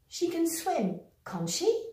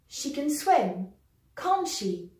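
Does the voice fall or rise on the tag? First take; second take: rise; fall. First: The voice rises on the tag. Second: The voice falls on the tag. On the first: The speaker is unsure. "we're going to use the rising intonation" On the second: The speaker is quite sure. "using a falling intonation, which means we are rather sure"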